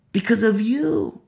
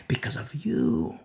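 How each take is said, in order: First: "Because of you" high and slow; pointed, lingering stress on "you"; drawn-out accusing repeat. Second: "Because of you" dropped low and soft; hushed, lowered verdict; low soft answer. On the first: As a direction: stretch "you" out, starting high and falling. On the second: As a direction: let "Because of you" fall quietly. First take of repeated answer. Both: Real, not acted.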